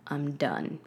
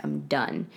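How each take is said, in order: First: Said in the usual way. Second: "I'm done." said much lower and flatly final. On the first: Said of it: "And I was like". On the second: Retold or imitated. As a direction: drop the pitch way down on "I'm done.". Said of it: "I'm like".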